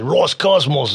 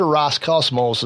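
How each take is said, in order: First: It is said in a put-on Russian accent. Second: It is said in a plain Michigan accent.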